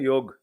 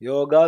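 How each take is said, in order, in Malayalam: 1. വാക്ക് അവസാനിക്കുന്നത് സ്വരമില്ലാത്ത വ്യഞ്ജനത്തിലാണ്. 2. വാക്ക് അവസാനിക്കുന്നത് സ്വരത്തിലാണ്. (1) "ഹിന്ദിക്കാര് ... യോഗ്" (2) "യോഗ എന്നുള്ളതിന്"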